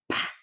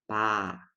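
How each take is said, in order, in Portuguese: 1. O p é solto com um sopro forte de ar. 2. O p é fraco, sem sopro de ar. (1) "o som do piub é aspirado" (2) "um som de P fraquinho"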